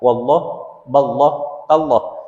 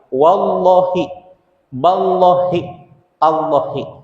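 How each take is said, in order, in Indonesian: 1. Setiap kata berakhir dengan huruf h tanpa vokal. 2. Setiap kata berakhir dengan vokal akhir i. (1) "menjadi sukun" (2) "melafadzkan kasroh di akhir kalimat"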